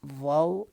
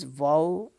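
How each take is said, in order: The two takes are said the same way.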